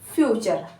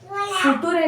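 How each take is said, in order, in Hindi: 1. इसे बीच में ch ध्वनि के साथ कहा जाता है। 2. इसे अक्षर-दर-अक्षर पढ़ा जाता है, t ध्वनि के साथ। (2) "फुटूरे नहीं"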